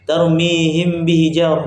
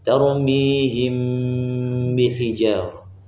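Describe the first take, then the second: First: The nasal m is rushed and cut short. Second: The nasal m is held long before b. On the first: The speaker calls it wrong. "jangan tergesa-gesa ... enggak" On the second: The speaker calls it right. "tapi ditahan ... panjangkan dia"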